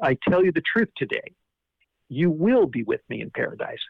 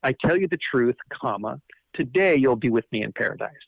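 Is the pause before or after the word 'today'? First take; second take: after; before. First: The pause comes after the word today. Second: The pause comes before the word today.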